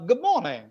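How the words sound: It is said the English way, with the r dropped. The speaker calls it right. "You just listen"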